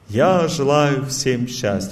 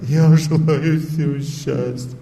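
First: The wish sounds warm, sincere and cheerful. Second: The wish sounds flat, gloomy and downcast. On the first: Life is going well for the one speaking. "я просто от души говорю" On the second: Life has gone downhill for the one speaking. "когда, допустим, жизнь пошла под откос"

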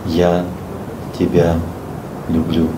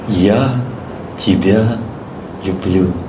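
First: It sounds deeply emotional and moving. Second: It sounds like it is meant to be heartfelt. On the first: The feeling is fully convincing and moving. "Третий вариант. ... Отлично, да? Мурашки пошли" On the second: The feeling is offered from the heart. "Второй вариант. ... От всего сердца? Нет"

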